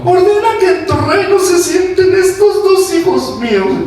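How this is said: It is read in a begging, pleading tone.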